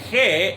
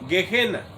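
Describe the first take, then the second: First: It begins with a throaty h-like sound. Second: It begins with a hard g sound. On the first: This is the Spanish reading of the spelling. "la G seguida de la E se pronuncia como J" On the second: This is the English way of saying it. "En inglés no, suena como G y E normal"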